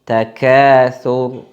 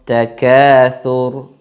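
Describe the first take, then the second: No difference in how they are said.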